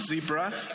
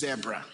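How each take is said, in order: First: The word is said with an American pronunciation. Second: The word is said with a non-American pronunciation. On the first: The speaker calls it wrong. "It's not zebra" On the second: The speaker calls it right. "it is zebra"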